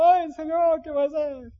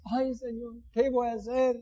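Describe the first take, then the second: First: Higher, louder hammed-up "Ay, Señor"; dramatic wail. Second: Softer worried sigh, "Ay, Señor"; mock lament. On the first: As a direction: cry it out theatrically to the Lord. (lamento exagerado, agudo y fuerte) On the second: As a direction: mutter the worry half to yourself. (lamento burlón en voz baja) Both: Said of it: "Qué dramático".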